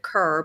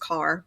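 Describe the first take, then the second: First: The name is said with a 'cur' vowel. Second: The name is said with a 'car' vowel. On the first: This is how the family says it. "my family says it Kerr" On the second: This is how most people say it. "everyone says usually says Carr"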